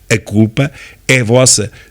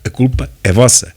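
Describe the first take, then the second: First: The phrase is said more slowly and deliberately. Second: The phrase is said at a normal, quicker pace.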